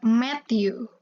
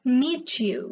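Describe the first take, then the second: First: The first word has a short 'e' vowel. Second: The first word has a long 'ee' vowel. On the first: The speaker calls it wrong. "bukan met you" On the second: The speaker calls it right. "tapi meet you"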